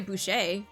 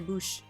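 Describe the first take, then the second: First: The word ends with a vowel after 'sh'. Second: The word ends on the 'sh' sound. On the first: The speaker calls it wrong. "So you wouldn't say boucher" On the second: The speaker calls it right. "you would just say bouche"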